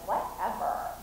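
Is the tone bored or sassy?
sassy. It is said in a sassy tone with attitude. "have a little attitude"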